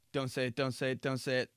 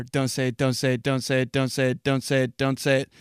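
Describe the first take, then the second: First: Urgent self-talk. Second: Chanted, repeat it like a tense mantra; self-warning chant. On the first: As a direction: chant it softly to yourself, holding back. Coaching himself not to order. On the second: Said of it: "that's me w-, when I sit down at a bar". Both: Acted.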